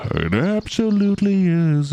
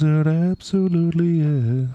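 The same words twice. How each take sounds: First: High, loud, theatrical yes; gushing reply. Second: Gushing echo. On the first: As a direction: answer yourself like a thrilled fan. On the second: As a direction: repeat it, still thrilled. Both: Real, not acted. Answering own question enthusiastically.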